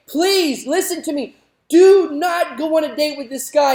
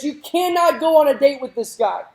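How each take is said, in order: First: Father begging, raised and urgent; pleading father. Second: Father laying down the law, higher and louder; firm no from a worried dad; stern father forbidding. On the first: Father begging his daughter not to date the playboy, urgent and raised. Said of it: "the father again pleading and saying". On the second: Preacher voicing the father forbidding his daughter, firm and raised. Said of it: "the father then looks at his daughter and says". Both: Retold or imitated.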